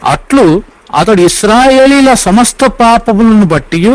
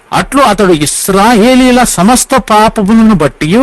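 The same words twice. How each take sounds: Both takes have the same delivery.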